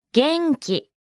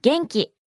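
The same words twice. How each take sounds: First: 元気 drawn out in two separate beats; slow model. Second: Said in the usual way. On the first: Shown as a demonstration. Teacher breaks down the word for fine to learners, slowly. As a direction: say 元気 slowly, beat by beat.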